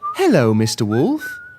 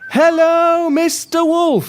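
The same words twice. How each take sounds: First: It is said at a quiet, normal level. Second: It is shouted very loudly.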